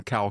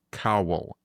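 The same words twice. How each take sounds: First: "Cal" squashed into one syllable; one-syllable pronunciation. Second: "Cowell" said as the full name; spelled-out name pronounced. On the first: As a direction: run the name Cowell together as "Cal". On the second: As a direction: say "Cowell" clearly, as just spelled. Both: Retold or imitated. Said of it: "you said you one syllabilized these".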